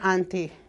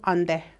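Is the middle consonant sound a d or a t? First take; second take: t; d. First: The middle consonant is a clear t sound. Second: The middle consonant sounds like a d. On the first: The letters are read as if they were English. The speaker calls it wrong. "if you're reading in English, you're going to say auntie" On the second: The letters are read by the language's own spelling rules. The speaker calls it right. "But if you're reading in S R O, onde"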